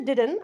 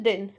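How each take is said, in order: First: "didn't" as "did-en", both D sounds heard; two-syllable didn't. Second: "didn't" squeezed to "din"; one-syllable didn't. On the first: Teacher offering an alternative, "didn't" as "did-en". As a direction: give "didn't" a full second syllable, "did-en". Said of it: "Also, you can say didn't". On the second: Teacher showing their own habit, "didn't" as "din". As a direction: drop the middle D and final T of "didn't". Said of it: "But I use it didn't". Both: Shown as a demonstration.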